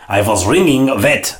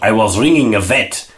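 First: "ringing Vet" said with no "a" before Vet; missing out the A. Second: Said in the usual way. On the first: Shown as a demonstration. Explaining the punchline, he says it without the a. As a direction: drop the article, slightly slower. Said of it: "missing out the A". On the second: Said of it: "And so it's not".

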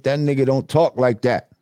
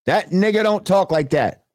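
First: Said in the usual way. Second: Higher, emphatic "don't talk like that"; insistent repeat. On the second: Real, not acted. Host debunking a fake accent, insistent high-pitched "don't talk like that".

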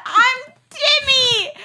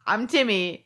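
First: Very high, loud, drawn-out wail; mock bawling. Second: Said in the usual way. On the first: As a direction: burst into hammed-up sobs, shouting it. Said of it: "then the waterworks".

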